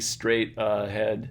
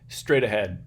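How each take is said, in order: First: The first syllable of 'ahead' is stressed, with a full vowel. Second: The first syllable of 'ahead' is an unstressed schwa. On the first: The speaker calls it wrong. "Don't say straight ahead, something like that" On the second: The speaker calls it right. "just like you normally would"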